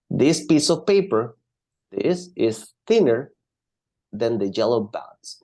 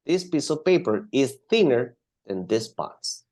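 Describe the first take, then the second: First: Paper and thinner pressed, slow and clear; slow stressed model sentence. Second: Said in the usual way. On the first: Shown as a demonstration. Teacher to student, modelling the sentence slowly with stress. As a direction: spell it out slowly, leaning on thinner.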